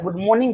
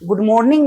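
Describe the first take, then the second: First: The r in morning is left silent. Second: The r in morning is clearly pronounced. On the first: The speaker calls it right. "आर silence होता है" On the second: The speaker calls it wrong. "Good मॉर्निंग नहीं होता"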